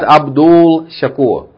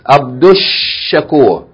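First: The l is sounded before the sh. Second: The l is dropped and the sh doubled. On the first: The speaker calls it wrong. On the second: The speaker calls it right. "Two sheens"

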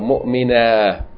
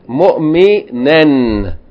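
First: The word ends with a long a vowel. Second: The word ends with an n sound. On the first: The reading stops on this word. "you just pronounce it as though it's a long vowel" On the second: The reading continues with no pause. "You have to pronounce the tanween"

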